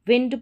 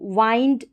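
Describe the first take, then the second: First: The vowel sounds like the 'i' in 'it'. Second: The vowel sounds like the 'i' in 'eye'. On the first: The speaker calls it right. "विंड पढ़ेंगे" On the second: The speaker calls it wrong. "इसको वाइंड नहीं पढ़ेंगे"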